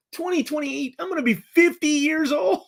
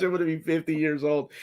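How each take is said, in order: First: High, incredulous outburst at his own age; shocked disbelief. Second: Said in the usual way. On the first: Real, not acted. Streamer realizing he'll be fifty, shocked and high. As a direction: pitch way up in mock horror.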